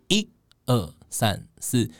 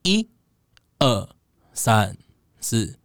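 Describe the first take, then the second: First: The counting is said at a faster pace. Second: The counting is said at a slower pace.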